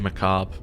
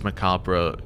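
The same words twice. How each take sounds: First: It is said with an American pronunciation. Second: It is said with a British pronunciation. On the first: "Americans say macabre" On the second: "British it's macabre"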